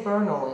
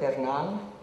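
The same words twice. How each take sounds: First: The name is said with an English pronunciation. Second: The name is said with a Spanish pronunciation. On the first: Outsiders say the name this way. The speaker calls it wrong. "If they say Bernal" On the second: The family says the name this way. The speaker calls it right. "instead of Bernal"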